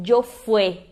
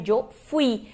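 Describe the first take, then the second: First: "yo fue" with fweh, ending in E; mistaken verb form. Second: "yo fui" with fwee, ending in I; corrected verb form. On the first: Teacher quotes learners' mistake, slow "yo fue" ending in E. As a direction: slowly say "yo fue", ending on open E. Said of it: "Muitas pessoas dizem". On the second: Teacher corrects learners, "yo fui" with stressed final I. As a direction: say "yo fui", landing on the I. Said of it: "mas na verdade é yo fui". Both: Shown as a demonstration.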